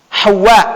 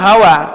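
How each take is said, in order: First: The w sound is doubled and held longer. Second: The w sound is short and single. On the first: The speaker calls it right. "wawunya tasydid" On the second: The speaker calls it wrong. "Menyebut nama Hawa"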